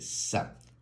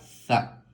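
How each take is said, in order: First: The consonant is a plain s sound. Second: The consonant is a th-like sound, not s. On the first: "podemos también hacerla como el sonido de la S" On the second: "la Z también puede sonar con la A"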